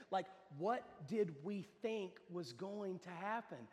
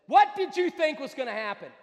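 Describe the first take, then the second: First: Slow, softer, measured question; sober reflection. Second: Loud, higher, incredulous shout; exasperated outburst. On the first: Real, not acted. Preacher asks people today, slow sober question. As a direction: spell it out slowly for them to ponder. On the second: Acted. Preacher puts the question after the story, exasperated shout. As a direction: fire the question out at full volume.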